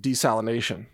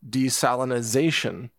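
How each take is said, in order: First: The word has no extra '-iz-' syllable. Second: The word has an extra '-iz-' syllable. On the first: The speaker calls it right. "the correct way is desalination" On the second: The speaker calls it wrong. "they're adding an extra syllable"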